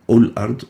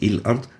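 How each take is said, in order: First: The word begins with a u vowel. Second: The word begins with an i vowel. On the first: "not ul-ard" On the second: "or il-ard"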